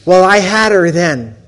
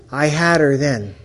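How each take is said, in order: First: Louder, proud emphasis; triumphant. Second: Said in the usual way. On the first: Real, not acted. Speaker telling the audience he'd won her over, loud and proud. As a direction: announce your win.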